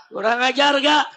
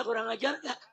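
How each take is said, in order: First: Loud demand for the crowd's answer; shouted question. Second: Quiet question. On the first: (bertanya lantang kepada massa) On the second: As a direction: ask it much more softly. (bertanya dengan suara pelan) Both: Real, not acted. Asks crowd softly, then repeats loudly.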